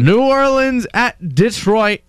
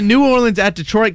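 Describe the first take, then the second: First: It is said slowly. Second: It is said fast.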